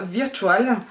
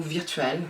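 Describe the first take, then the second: First: "Virtual" said the French way, veer-tu-al; French pronunciation. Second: "Virtual" said the English way, quieter and lower; English pronunciation. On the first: Naming the eyeshadow shade to viewers, "Virtual" said in French. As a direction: read "Virtual" as a French word. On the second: Unsure of the shade's name, "Virtual" said in English. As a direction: try "Virtual" again as an English word. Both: Shown as a demonstration. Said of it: "je ne sais pas".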